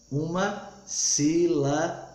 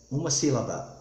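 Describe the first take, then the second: First: "Uma sílaba" slowly broken up with pauses; syllable by syllable. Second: Said in the usual way. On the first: Shown as a demonstration. Teacher drilling the rule, "Uma sílaba" slowly in separate beats.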